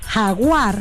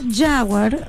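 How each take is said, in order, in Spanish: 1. Se dice de manera fuerte y contundente. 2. Se dice de manera plana y sosa. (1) "suena como más imponente, más fuerte" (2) "es como soso"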